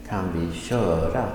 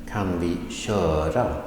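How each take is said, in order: The two takes are said the same way.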